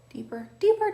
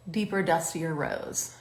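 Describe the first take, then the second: First: Sing-song high. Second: Said in the usual way. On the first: Shown as a demonstration. Repeats the shade name playfully.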